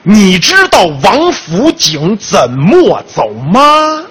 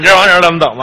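First: It is said slowly and clearly. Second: It is said fast and slurred together.

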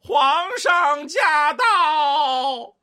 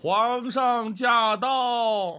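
First: It is called at a higher pitch. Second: It is called at a lower pitch.

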